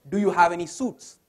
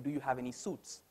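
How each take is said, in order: First: It is said loudly. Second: It is said at normal volume.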